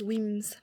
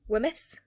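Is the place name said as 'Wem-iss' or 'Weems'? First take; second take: Weems; Wem-iss. First: The name is said as one syllable, Weems. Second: The name is said as two syllables, Wem-iss. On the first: This is how locals say it. The speaker calls it right. "it was Weems" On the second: This is how the narrator said it. The speaker calls it wrong. "when she said"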